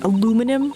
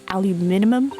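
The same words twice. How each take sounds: First: It is said with an American pronunciation. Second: It is said with a British pronunciation. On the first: "what we say" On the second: "over there it's aluminum"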